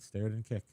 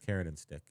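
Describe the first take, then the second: First: The opening sounds of two words are swapped. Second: Each word keeps its usual opening sound. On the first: The speaker calls it wrong. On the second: The speaker calls it right.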